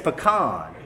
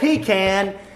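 First: It is said the way Texans say it. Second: It is said the way non-Texans say it. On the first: The speaker is from Texas. The speaker calls it right. "the way to say it is pecan" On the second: The speaker is not from Texas. The speaker calls it wrong. "If you say pecan, you're not from Texas"

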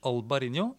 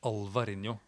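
First: The middle consonant is a b sound. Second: The middle consonant is a v sound. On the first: The speaker calls it wrong. "slutt å si Alvarinho" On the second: The speaker calls it right. "begynn å si Alvarinho"

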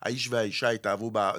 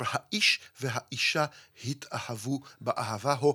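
First: The alef and he consonants are dropped, leaving vowels. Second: Each alef and he consonant is clearly pronounced. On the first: The speaker calls it wrong. "לא אלף אחת ולא ה אחת" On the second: The speaker calls it right. "אבל יש לומר"

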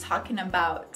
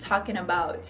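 The two takes are said the same way.

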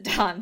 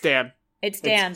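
First: The vowel is the open 'aw' of 'Dawn'. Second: The vowel is the short 'a' of 'Dan'. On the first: This is how a character says the name. "she pronounces it Dawn" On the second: This is the name as it is written. "It's Dan"

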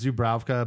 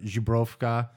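First: The name is said with an American pronunciation. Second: The name is said with a Polish pronunciation. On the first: "us Americans"

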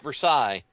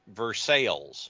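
First: The name is said the French way. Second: The name is said the local Kentucky way. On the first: The speaker calls it wrong. "It's not Versailles" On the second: The speaker calls it right. "It's spelled the same way, but it's Versailles"

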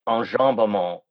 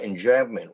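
First: The word is pronounced the French way. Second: The word is pronounced the English way. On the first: "use the French term enjambement" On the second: "or enjambment"

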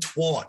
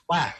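First: The vowel sounds like the one in hot. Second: The vowel sounds like the one in hat. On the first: The speaker calls it wrong. "It's not twat" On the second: The speaker calls it right. "It rhymes with hat. It rhymes with cat"

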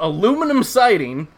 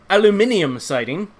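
First: It is said in an American accent. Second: It is said in a British accent.

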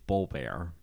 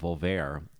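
First: The word starts with a soft B sound. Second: The word starts with an English V sound. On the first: The speaker calls it right. "the V has like a soft B sound" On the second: The speaker calls it wrong. "all these years I've been calling it Volver"

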